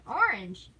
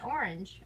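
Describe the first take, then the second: First: "Orange" said louder and higher, both syllables clear; "Orange" pressed out as two full syllables; insistent orange. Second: Said in the usual way. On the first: Shown as a demonstration. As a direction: lean on "Orange" to prove the point. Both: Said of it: "There's an A in that word".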